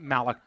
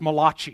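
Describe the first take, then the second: First: The name is said with an English pronunciation. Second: The name is said with an Italian pronunciation. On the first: The speaker calls it wrong. "It isn't Malachi" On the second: The speaker calls it right. "as an Italian, I know this. It's Malachi. He was the great Italian prophet"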